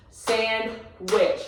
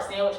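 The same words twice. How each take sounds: First: "Sandwich" broken into sand, then wich, with a gap; "Sandwich" sounded out in two distinct beats; split by syllables. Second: Said in the usual way. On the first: Shown as a demonstration. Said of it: "If we break it apart".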